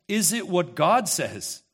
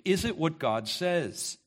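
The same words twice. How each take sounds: First: God leaned on, slow and louder; slow question with God weighted; stress on God. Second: It weighted, slow and level; slow question leaning on it; stress on it. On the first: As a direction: hit the word God, slow. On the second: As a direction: press on it, slow. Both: Shown as a demonstration. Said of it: "Creator has something to say".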